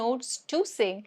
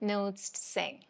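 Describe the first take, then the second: First: The word 'to' is said in full. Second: The word 'to' is reduced to a weak sound. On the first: The speaker calls it wrong. "don't say" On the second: The speaker calls it right. "This becomes"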